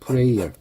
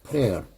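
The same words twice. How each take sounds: First: The first vowel is an 'ay' glide sound. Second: The first vowel is a plain 'e' sound. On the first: It means a person who prays. "기도하는 사람" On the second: It means the act of praying. "기도가 되면 프레어가 됩니다"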